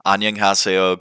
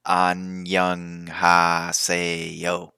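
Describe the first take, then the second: First: Said in the usual way. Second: Annyeonghaseyo said slowly as one smooth sound; run together. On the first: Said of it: "Annyeonghaseyo goes a long way". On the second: Shown as a demonstration. Teaching tourists to greet locals, Annyeonghaseyo blended as one word. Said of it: "like it's one syllable".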